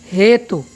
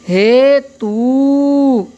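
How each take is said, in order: First: The final u vowel is short and clipped. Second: The final u vowel is long and drawn out. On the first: "छोटा ऊ" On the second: "बड़ा ऊ लगा करके"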